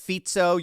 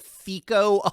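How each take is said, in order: First: The middle consonant is a ts sound. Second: The middle consonant is a k sound. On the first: The speaker calls it right. "it's Fizzo" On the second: The speaker calls it wrong. "A lot of commentators mispronounce his name"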